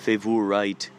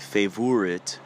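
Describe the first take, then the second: First: It is said in a put-on European accent. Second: It is said in a put-on European accent.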